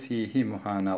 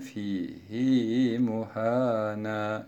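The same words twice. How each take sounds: First: The final vowel of 'fihi' is short. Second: The final vowel of 'fihi' is lengthened. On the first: "Normal şartlarda fihi muhana olması gereken" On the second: "şeklinde okuyoruz"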